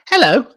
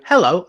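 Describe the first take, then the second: First: The voice is at a higher pitch. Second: The voice is at a lower pitch. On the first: The speaker calls it right. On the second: The speaker calls it wrong.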